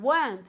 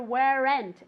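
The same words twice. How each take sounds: First: The word is said as one syllable. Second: The word is said as two syllables. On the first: The speaker calls it right. "It's just one syllable" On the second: The speaker calls it wrong. "I never ever ever want to hear weren't"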